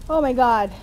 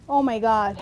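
No difference in how they are said.

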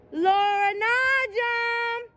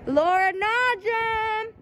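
First: Much higher, very slow drawn-out holler; sing-song yell of the full name; long call out. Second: Drawn-out, higher call across the lot; slow hollering of her name. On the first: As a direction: stretch the name out to reach her window. Calling out again, more drawn out. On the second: Calling out for girlfriend outside. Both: Acted.

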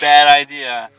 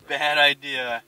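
First: Much louder, punched BAD; emphatic warning. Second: Said in the usual way. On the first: Warning against bringing only girls.

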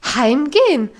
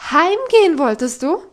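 First: Loud, falling disbelief on Heimgehen; shocked repeat. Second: Loud, rising on Heimgehen; incredulous question. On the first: Governess echoing Heidi's word, loud falling outrage. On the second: Governess demanding an answer from Heidi, loud rising outrage. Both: Acted.

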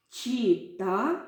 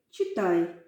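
First: «Читай» said as чита, rising, final й dropped; unfinished word for them to complete; й left off. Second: Said in the usual way. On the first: Shown as a demonstration. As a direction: leave the ending open. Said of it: "я зараз вам покажу". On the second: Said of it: "долучаєтеся до гри".

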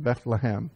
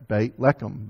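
First: Bethlehem in plain English, BETH-luh-hem; Bethlehem, everyday anglicized form; anglicized pronunciation. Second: Beit Lechem said the Hebrew way, BAYT LEH-khem; Hebrew pronunciation. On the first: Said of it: "we sort of anglicize it Bethlehem". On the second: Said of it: "Beit means house, and Lechem means bread". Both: Shown as a demonstration.

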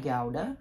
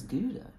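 First: Gouda sounded as "GOW-duh"; Gouda starting like "gown"; pronounced GOW-duh. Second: Gouda sounded as "GOO-duh"; Gouda starting like "goose"; pronounced GOO-duh. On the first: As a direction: give Gouda an "ow" sound, as in "cow". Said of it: "It looks more like". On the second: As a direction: give Gouda an "oo" sound, as in "food". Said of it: "I always thought it was". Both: Shown as a demonstration.

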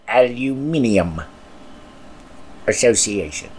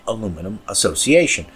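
First: Aluminium said the British way, al-yoo-MIN-ee-um; British pronunciation. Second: Said in the usual way. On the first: Shown as a demonstration. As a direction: give Aluminium five syllables, stress on MIN. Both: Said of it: "or as the Brits say".

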